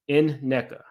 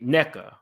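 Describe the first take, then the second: First: The name begins with a separate N sound first. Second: The name begins directly with the syllable 'neck'. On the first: "say the letter N and then say NECA" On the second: "So like neck A"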